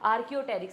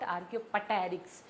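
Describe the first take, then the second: First: No p sound is pronounced before the t. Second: A p sound is pronounced before the t. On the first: The speaker calls it right. "पी इज silent here." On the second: The speaker calls it wrong. "It इज़ not आर्कियोपटेरिक्स"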